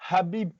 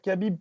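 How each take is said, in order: First: The name is said in its original, non-French way. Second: The name is said adapted to French pronunciation. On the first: "on va pas dire Habib" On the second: "tu t'adaptes un peu à ton discours"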